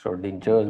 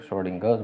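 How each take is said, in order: First: श्रोडिंजर्स with a soft "j" sound before the ending; low, soft श्रोडिंजर्स, j instead of hard g; alternative pronunciation. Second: श्रोडिंगर्स with a hard "g" sound before the ending; low, soft श्रोडिंगर्स, hard g instead of j; alternative pronunciation. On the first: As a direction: say श्रोडिंजर्स with "-jers", as in "jar". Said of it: "श्रोडिंजर्स बोल देते हैं कुछ लोग". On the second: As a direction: say श्रोडिंगर्स with "-gers", g as in "go". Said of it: "श्रोडिंगर्स बोलते हैं कुछ". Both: Shown as a demonstration.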